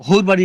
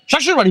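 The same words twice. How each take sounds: First: "হোর" begun with an h sound; Sylheti pronunciation. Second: "শ্বশুর" with sh on both syllables; standard Bengali pronunciation. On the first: Husband explaining the dialect word to wife, Sylheti pronunciation. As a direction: give "হোর" in Sylheti, h replacing sh. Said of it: "এটা সিলেটি ভাষা". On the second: Husband teaching wife the word, standard pronunciation. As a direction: pronounce "শ্বশুর" in standard Bengali, sh rather than h. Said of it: "এটা শ্বশুর বাড়ি বলে". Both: Shown as a demonstration.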